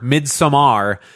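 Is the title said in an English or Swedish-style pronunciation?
Swedish. The title is said with a Swedish-style pronunciation. The speaker is trying to sound clever. The speaker calls it wrong. "If you pronounce Midsommar Midsommar, stop it"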